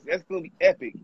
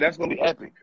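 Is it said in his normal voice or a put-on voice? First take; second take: put-on; normal. First: It is said in a put-on voice. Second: It is said in his normal voice.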